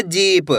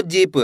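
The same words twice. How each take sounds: First: जीप with the ee held long. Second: जीप with a quick, short i. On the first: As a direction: stretch out the vowel in जीप. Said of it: "बड़ी की मात्रा को खींच के पढ़ा जाता है". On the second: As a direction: cut the vowel short in जीप. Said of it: "ऐसे नहीं पढ़ना आपको". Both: Shown as a demonstration.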